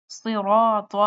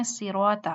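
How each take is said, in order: First: "صراط" with full s, rounded r, heavy t; correct heavy sounds. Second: "صراط" as light siraata; thin s and soft t in "صراط"; wrong pronunciation. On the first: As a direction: fill the mouth on "صراط". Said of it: "وہ پڑھتے ہیں صراط". ("صراط" موٹے صاد اور طا سے) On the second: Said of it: "غلط". ("صراط" ہلکی سین اور تے سے) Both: Shown as a demonstration.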